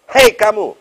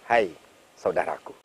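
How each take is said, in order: First: It is said in a harsh, startling tone. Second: It is said in a soft, gentle tone.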